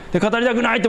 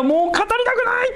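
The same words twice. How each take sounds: First: Said in the usual way. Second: A sudden high, strained cry of a weary prophet; Jeremiah's lament. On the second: Retold or imitated. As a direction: cry it out like a prophet at the end of his strength. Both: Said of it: "ってこう言ったんです".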